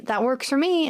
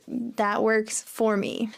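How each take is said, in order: First: Said in the usual way. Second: THAT WORKS FOR ME drawn out slowly; slow model phrase. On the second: Shown as a demonstration. Teacher modelling "That works for me" for learners, slowly. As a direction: say "That works for me" at half speed, word by word.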